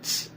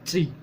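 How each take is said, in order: First: The T is said bare, without a vowel. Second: The T is said with its vowel sound. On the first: "remove the part where we are pronouncing the letter E" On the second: "All you have to do is pronounce T"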